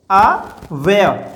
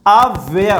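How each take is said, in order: First: अव्यय slowly broken after the first अ; अव्यय in two slow, separate pieces; split into parts. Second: Said in the usual way. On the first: Shown as a demonstration. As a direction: hold अ apart, then finish अव्यय. Teacher splits word into parts.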